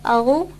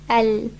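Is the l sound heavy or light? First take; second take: heavy; light. First: The l sound is heavy and thick. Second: The l sound is light, tongue flat. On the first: The speaker calls it wrong. "it's important that we don't say al" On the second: The speaker calls it right. "Lam is an empty letter, which means that the tongue needs to be flat"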